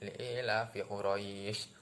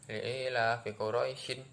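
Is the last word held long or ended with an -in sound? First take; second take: held long; ended -in. First: The last word stops on a lengthened vowel. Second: The last word ends with a short -in. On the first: "panjang seperti itu" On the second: "yang awalnya dibaca"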